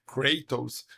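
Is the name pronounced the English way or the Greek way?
English. The name is said with an English pronunciation. The speaker calls it wrong. "If you like pronounce it Kray, Kratos, that is English"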